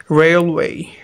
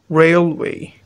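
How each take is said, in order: Both takes have the same delivery.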